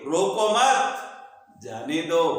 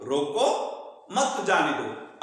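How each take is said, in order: First: "रोको मत" together, clear break, then "जाने दो" lower; pause after मत. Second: "रोको", a short break, then "मत जाने दो" together; pause after रोको. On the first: Teacher moving the comma to flip meaning, pause after "मत". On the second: Teacher showing how a comma changes meaning, pause right after "रोको". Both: Shown as a demonstration. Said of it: "अब ये comma आगे सरकार दीजिए".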